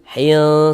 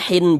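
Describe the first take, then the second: First: The n sound is obscured and nasalized. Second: The n sound is pronounced clearly. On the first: The speaker calls it right. "tapi disamarkan hil hil hil seperti itu" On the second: The speaker calls it wrong. "jangan kita baca hin hin jelas itu jangan"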